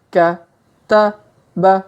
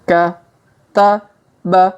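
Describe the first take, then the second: The two takes are said the same way.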